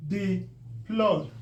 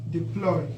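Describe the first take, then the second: First: "Deploy" as dee, pause, ploy; two separate beats in "Deploy"; split by syllable. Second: Said in the usual way. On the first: Shown as a demonstration. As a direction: sound out "Deploy" with a gap after dee. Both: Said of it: "breaking it according to the syllable".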